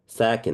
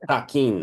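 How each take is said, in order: First: The vowels are relaxed and lightly reduced. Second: The vowels are full and open, Spanish-like. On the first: The speaker calls it right. "it's like chill vowels" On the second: The speaker calls it wrong. "Spanish, right? It must be sak, sakin"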